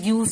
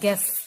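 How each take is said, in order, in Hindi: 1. g के बाद u को 'yoo' की तरह बोला जाता है। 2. u साइलेंट है, इसलिए सादा 'gess' सुनाई देता है। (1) "इसको मैं ग्यूस नहीं बोल सकती" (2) "ये है गैस"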